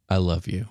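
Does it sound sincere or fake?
sincere. It sounds sincere and meant.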